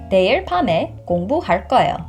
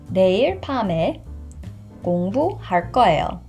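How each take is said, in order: First: The sentence is spoken at a fast pace. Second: The sentence is spoken at a slow pace. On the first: "The first time I will say fast" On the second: "the second time I will say it much slower"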